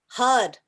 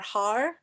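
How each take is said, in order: First: The word ends with a d sound. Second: The word ends with an r sound. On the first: The speaker calls it right. "but it's hud" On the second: The speaker calls it wrong. "it looks like H A R har"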